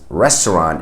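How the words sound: It is pronounced the English way. "which we would pronounce as restaurant in English"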